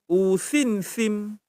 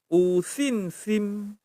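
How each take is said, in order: Both takes have the same delivery.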